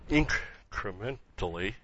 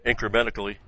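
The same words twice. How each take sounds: First: "incrementally" slow and softer, broken into separate parts; careful syllable-by-syllable. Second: "incrementally" slurred with muddled middle syllables; stumbled pronunciation. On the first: Preacher correcting his own stumble, "incrementally" sounded out carefully. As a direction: sound out "in-cre-men-tally" piece by piece. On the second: Preacher tripping over a long word mid-explanation, "incrementally" stumbled. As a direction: trip through "incrementally" in one go. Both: Real, not acted.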